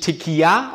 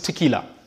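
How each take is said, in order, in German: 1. Das l wird wie ein Gleit-l gesprochen. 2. Das l wird als einfaches l gesprochen. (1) "nicht Tequila ausgesprochen, wie es gerne mal gesagt wird" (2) "Es ist nur ein L, ... sondern es ist Tequila"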